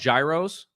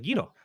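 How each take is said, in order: First: The word is said the common American way. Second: The word is said the Greek way. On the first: "Most people call them gyros" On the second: "That's the technical pronunciation"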